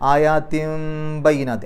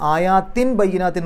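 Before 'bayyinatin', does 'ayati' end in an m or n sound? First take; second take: m; n. First: The first word ends in an m sound. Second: The first word ends in a clear n sound. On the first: The speaker calls it right. "നൂനിൻ്റെ ശബ്ദത്തെ മീമിൻ്റെ ശബ്ദമാക്കി മാറ്റിമറിക്കുക" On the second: The speaker calls it wrong. "എന്ന് പറയില്ല"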